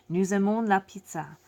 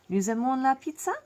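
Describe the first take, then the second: First: The voice falls at the end, a statement. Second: The voice rises at the end, a question.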